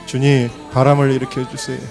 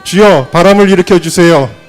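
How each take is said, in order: First: It is said at a softer volume. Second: It is said at a louder volume.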